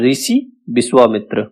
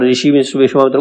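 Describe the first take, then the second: First: The hissing sounds are pronounced as s. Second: The hissing sounds are pronounced as sh. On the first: This is how Awadhi speakers say it. "अवधि में श और शा का उच्चारण सा से ही होता है" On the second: This is the standard pronunciation. "मतलब ऋषि विश्वामित्र को क्या बोलेंगे?"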